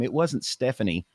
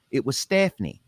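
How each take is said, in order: First: Said in the usual way. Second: Stephanie with a drawled Texan first vowel; Texan pronunciation. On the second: Shown as a demonstration. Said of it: "this is how she said her name".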